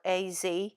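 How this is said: The Z is said as zee.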